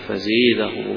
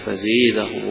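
First: The long vowel is tilted toward an e sound. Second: The same.

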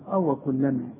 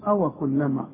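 Both takes have the same delivery.

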